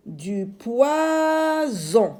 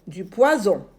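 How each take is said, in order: First: Poison slow, higher, Z held; stretched z sound. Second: Said in the usual way. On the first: Shown as a demonstration. Teacher models the word slowly. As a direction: lengthen the Z in poison.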